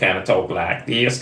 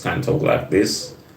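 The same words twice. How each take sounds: First: It is spoken in a twangy Southern accent. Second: It is spoken in a standard American accent. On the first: "your Southern American accent. ... kind of twangy" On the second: "I can do the American accent like this"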